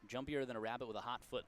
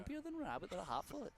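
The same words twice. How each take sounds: First: It is said in a normal voice. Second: It is said in an old-timey put-on voice.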